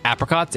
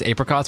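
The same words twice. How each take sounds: First: "Apricots" starting like "app"; short-a apricots. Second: "Apricots" starting like "ape"; long-a apricots. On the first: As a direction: say "Apricots" with the a of cat. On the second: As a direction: say "Apricots" with the a of day. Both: Shown as a demonstration. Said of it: "Do you say apricots or apricots".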